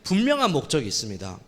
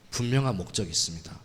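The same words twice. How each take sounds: First: It is said at normal, fuller volume. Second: It is said in a lowered, quieter voice.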